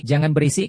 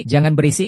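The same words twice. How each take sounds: First: Said in the usual way. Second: Loud call of jangan berisik. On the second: Acted. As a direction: yell berisik over the noise. Shouting to quiet crowd.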